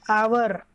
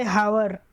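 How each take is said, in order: First: Said in the usual way. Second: "hour" with the H pronounced, as "hower"; wrongly sounded H. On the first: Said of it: "You'll say". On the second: Shown as a demonstration. Teacher showing students what not to say, "hour" with an audible H. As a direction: sound the silent H at the start of "hour". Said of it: "You don't say hour".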